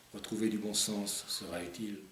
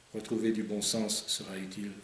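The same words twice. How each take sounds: Both takes have the same delivery.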